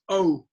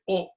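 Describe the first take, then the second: First: The vowel moves and glides as it ends. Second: The vowel stays steady without moving. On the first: The speaker calls it right. "The long is the moving O" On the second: The speaker calls it wrong. "don't say O, O. That is Japanese or Chinese or something"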